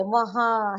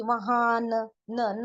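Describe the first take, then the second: First: वहाँ ending long in the nose, no n consonant; nasalised ending. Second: वहाँ closed with a sounded "na"; wrong full n. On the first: Urdu teacher showing learners noon ghunna, nasalised ending. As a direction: let वहाँ ring out nasally. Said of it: "नाक में से ले रहे हैं". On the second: Urdu teacher showing learners the mistake, full n demo. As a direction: tack a clear न onto the end of वहाँ. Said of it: "ऐसे भी नहीं बोल रहे". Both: Shown as a demonstration.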